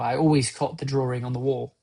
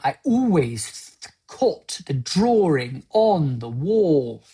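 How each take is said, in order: First: The vowels are gentle and relaxed. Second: The vowels are strained and overdone. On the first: The speaker calls it right. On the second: The speaker calls it wrong.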